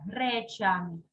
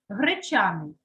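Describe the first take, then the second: First: Гречаний with a clear, full «е»; lower-pitched гречаний, «гре» as written; spelling pronunciation. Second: Гречаний with first vowel like «и»; unclear unstressed vowel. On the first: Teacher confirms the letter, гречаний with distinct first «е». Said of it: "ставимо букву". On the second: Teacher shows what is heard, гречаний sounding like «гричаний». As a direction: reduce «гре» toward «гри» in гречаний. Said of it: "Наче чую букву". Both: Shown as a demonstration.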